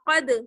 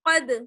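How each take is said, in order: First: The final d is released with an echo. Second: The final d is released with an echo.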